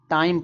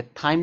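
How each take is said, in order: First: टाइम with a hard Hindi टा at the start; टाइम with T, no th sound; hard T pronunciation. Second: थाइम with an aspirated th at the start; थाइम begun with th instead of T; th pronunciation. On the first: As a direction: say टाइम opening on unaspirated T. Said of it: "sound दे रहा है टा का". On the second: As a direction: say थाइम opening on a Hindi था sound. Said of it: "थाइम नहीं पढ़ेंगे". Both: Shown as a demonstration.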